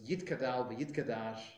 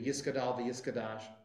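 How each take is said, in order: First: A t sound follows the first vowel. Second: An s sound follows the first vowel. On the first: "a Hebrew Israeli style pronunciation"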